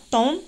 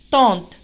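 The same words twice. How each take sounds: First: "Tente" broken in two, ten - te, with the final e voiced; syllable split. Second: Said in the usual way. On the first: Shown as a demonstration. (« Tente » découpé en syllabes, ten - te) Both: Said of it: "Deux syllabes".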